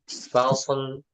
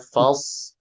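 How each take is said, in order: First: The s sound is cut short with a bounce. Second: The s sound is held and flows smoothly. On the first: The speaker calls it wrong. "kesalahan pada umumnya dibaca sodnya memantul" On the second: The speaker calls it right. "sodnya mengalir suaranya"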